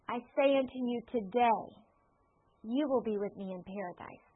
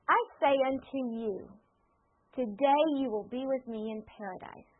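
First: The pause comes right after the word today. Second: The pause comes right before the word today.

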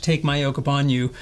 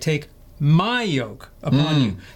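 First: The sentence is read without special stress on my. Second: The word my carries the main stress. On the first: The speaker calls it wrong. "when I read the passage" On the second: The speaker calls it right. "I should have read it this way"

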